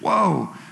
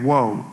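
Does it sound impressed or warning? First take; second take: impressed; warning. First: It sounds impressed and admiring. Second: It sounds like a stern warning.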